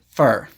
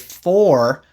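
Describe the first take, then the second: First: The word has a reduced vowel, like fur. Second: The word has a full, clear vowel. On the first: "but usually I say it for" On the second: "I usually only say for clearly like that"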